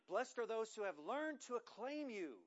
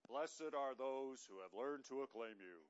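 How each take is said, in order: First: It is read with lively, varied energy. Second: It is read in a flat, droning voice. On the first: The speaker calls it right. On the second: The speaker calls it wrong.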